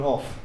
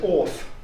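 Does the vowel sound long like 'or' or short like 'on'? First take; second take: short 'o'; long 'or'. First: The vowel is short, like 'o' in 'often'. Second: The vowel is long, like 'or' in 'orphan'. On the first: This is the standard, modern pronunciation. "rather than off" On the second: This is the older, traditional regional pronunciation. "this whole yellow area said off"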